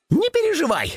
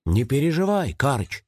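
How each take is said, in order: First: High-pitched eager rabbit voice; rabbit chiming in. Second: Gentle, mild reassurance; soft reassurance. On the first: Rabbit backing up the hedgehog's comfort, chiming in high. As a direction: chime in high, like a little rabbit. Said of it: "поддакнул кролик". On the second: Hedgehog comforting Karych over tea, gently. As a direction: soothe a worried friend gently. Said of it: "мягко сказал он". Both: A narrator's reading.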